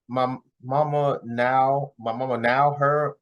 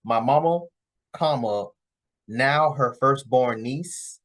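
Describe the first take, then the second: First: Slowly sounding out the words; reading it out haltingly, puzzled; slow stumbling reading. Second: Reading it out slowly, fixing the punctuation; slow corrected reading. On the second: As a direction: spell it out slowly, with the comma. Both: Retold or imitated. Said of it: "I think what she's trying to say is".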